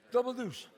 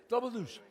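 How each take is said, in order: Both takes have the same delivery.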